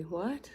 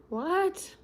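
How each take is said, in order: First: Said in the usual way. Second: What jumping much higher; startled high what; surprised. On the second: Real, not acted. Reacting to a surprise.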